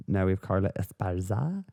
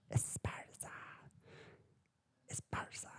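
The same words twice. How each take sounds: First: Said in the usual way. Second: Breathy stage whisper of the name; dramatic whisper. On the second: Acted. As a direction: hiss the name as if it's a secret.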